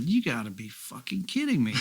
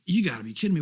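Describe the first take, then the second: First: Said in the usual way. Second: Excited disbelief. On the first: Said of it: "I said". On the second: Retold or imitated. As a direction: stretch it out in happy shock. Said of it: "so I'm going".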